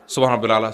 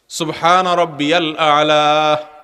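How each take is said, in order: First: It is said fast and hurried. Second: It is said slowly and calmly.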